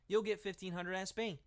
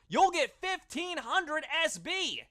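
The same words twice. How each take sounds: First: It is said in a flat, unexcited way. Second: It is said in an excited, lively way. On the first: The speaker calls it wrong. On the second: The speaker calls it right.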